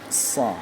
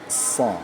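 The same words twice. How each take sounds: No difference in how they are said.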